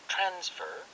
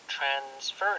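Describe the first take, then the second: First: The stress is on the first syllable. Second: The stress is on the second syllable. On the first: It is used as a noun. "명사를 쓸 때는 transfer" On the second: It is used as a verb. "동사를 쓸 때는 transfer 이렇게 뒤에 강세를 주잖아요"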